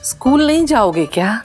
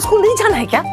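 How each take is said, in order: First: It is said in a sweet, loving tone. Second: It is said in a harsh, scolding tone.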